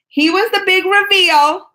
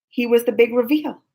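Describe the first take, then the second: First: Much higher and louder, slower; excited emphasis. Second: Said in the usual way. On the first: Shown as a demonstration. Telling friends about the panel surprise, excited emphasis. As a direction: sell the big reveal.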